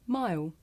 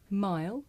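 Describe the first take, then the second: First: The final L sound disappears into the vowel. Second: The final L sound is clearly pronounced.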